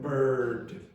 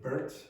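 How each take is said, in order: First: The word ends with a d sound. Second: The word ends with a t sound. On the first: The speaker calls it right. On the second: The speaker calls it wrong.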